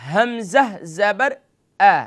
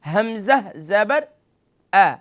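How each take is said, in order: Both takes have the same delivery.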